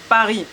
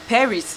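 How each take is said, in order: First: It is pronounced with a French accent. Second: It is pronounced with an English accent. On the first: The speaker calls it right. "la vraie prononciation, c'est Paris" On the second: The speaker calls it wrong. "c'est pas Paris"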